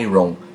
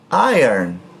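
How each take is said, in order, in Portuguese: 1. Os sons seguem a ordem da escrita. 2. Os sons estão invertidos em relação à escrita. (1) "Eu não posso falar iron" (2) "O correto é falar iron"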